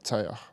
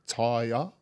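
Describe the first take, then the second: First: The name has anglicized vowel sounds. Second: The name has Polynesian vowel sounds. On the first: The speaker calls it wrong. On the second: The speaker calls it right. "it's meant to be"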